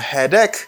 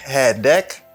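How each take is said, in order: First: The vowel in ache sounds like E. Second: The vowel in ache sounds like A. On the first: The speaker calls it wrong. "c'est pas headache, because here, ça pas prononcer A, pas prononcer tant coup E" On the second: The speaker calls it right. "il prononce tant coup A"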